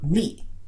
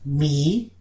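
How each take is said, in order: First: The word is said with a creaky tone. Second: The word is said with a low tone. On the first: "for the creaky tone" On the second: "for the low tone"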